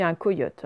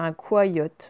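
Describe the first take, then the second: First: "coyote" said ko-yote; "coyote" opening ko, no wa sound; correct pronunciation. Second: "coyote" misread as kwa-yote; "coyote" opening kwa, like "quoi"; wrong double-I reading. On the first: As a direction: say "coyote" with a pure o first. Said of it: "Mais là, on dit un coyote". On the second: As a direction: say "coyote" with wa in first syllable. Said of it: "sinon ça ferait un coyote". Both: Shown as a demonstration.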